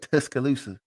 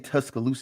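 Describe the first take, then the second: First: It is said in a country accent. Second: It is said in a plain accent.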